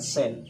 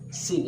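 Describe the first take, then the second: First: The vowel is an open 'e' sound. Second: The vowel is a close 'ee' sound. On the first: The speaker calls it wrong. "bukan sen" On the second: The speaker calls it right. "sin ya"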